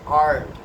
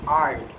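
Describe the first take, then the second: First: It is said with an American accent. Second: It is said with an American accent.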